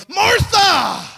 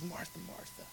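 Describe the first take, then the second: First: Hammed-up angry bellow, pitched very high; angry shout. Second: Very soft, tender calling of a name. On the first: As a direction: yell the name in mock outrage. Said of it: "he's not angrily saying something where he goes". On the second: Acted. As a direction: say the name twice, gently hushed. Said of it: "it's a tenderness in his voice".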